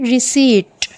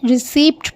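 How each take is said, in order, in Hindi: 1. अंतिम t से पहले कोई p ध्वनि सुनाई नहीं देती। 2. अंतिम t से पहले p ध्वनि बोली जाती है। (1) "ये साइलेंट है, इसे कहेंगे रिसीट" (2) "बाज़ लोग इसे रिसीप्ट पढ़ते हैं, जो कि गलत है"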